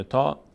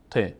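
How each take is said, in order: First: تا said "taa", with a long open a; Arabic letter name. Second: ت said "te", with an e vowel; Persian letter name. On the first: Teacher giving learners the Arabic name, تا as "taa". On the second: Teacher giving learners the Persian name, ت as "te". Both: Shown as a demonstration.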